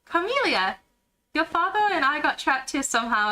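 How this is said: It is spoken in a put-on British accent.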